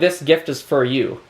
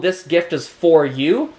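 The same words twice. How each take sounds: First: The word for is reduced to fur. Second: The word for keeps its full vowel. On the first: The speaker calls it right. "if I was speaking quickly, For instead of for" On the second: The speaker calls it wrong. "No, no, no"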